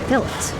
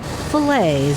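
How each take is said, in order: First: The word is said with a British pronunciation. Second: The word is said with an American pronunciation. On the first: This is how the British buyers say it. "instead of fillets" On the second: This is how the local workers say it. "teach the Brits to call them fillets"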